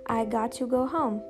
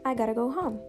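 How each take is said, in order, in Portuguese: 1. 'Got to' é falado por extenso e devagar. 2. 'Got to' é falado rápido, reduzido para 'gotta'. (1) "se eu fosse falar, I got to go home" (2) "Se eu falar rápido"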